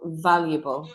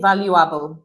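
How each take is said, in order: First: The stress falls on the first syllable. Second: The stress falls on the second syllable. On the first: The speaker calls it right. "we do put more of a stress here. So valuable" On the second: The speaker calls it wrong. "we don't say valuable, the you are, no"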